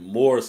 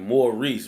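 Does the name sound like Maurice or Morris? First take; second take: Morris; Maurice. First: The name is said like Morris. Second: The name is said like Maurice. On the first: The speaker calls it wrong. "I was calling it Morris or something" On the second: The speaker calls it right. "It's it's pronounced like Maurice"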